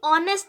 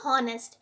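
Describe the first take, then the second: First: The word begins with a vowel sound. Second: The word begins with an h sound. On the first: The speaker calls it right. "ऑनेस्ट आप इसको पढ़ेंगे" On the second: The speaker calls it wrong. "ना कि हॉनेस्ट"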